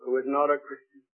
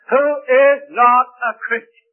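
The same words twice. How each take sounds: First: Soft, lower repeat; quiet echo. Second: Loud, high, slow preaching; preaching emphasis. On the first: Preacher repeating the point softly to the congregation. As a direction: let it sink in quietly. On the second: Preacher pressing the point home to the congregation, loud and slow. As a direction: drive the words home from the pulpit. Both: Real, not acted.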